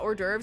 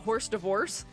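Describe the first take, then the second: First: It is said the standard way, 'or-derves'. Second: It is said like the words 'horse divorce'. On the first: "I used to pronounce uh, hors d'oeuvres as" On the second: "that's initially how I pronounced it when I was a kid because I didn't know better"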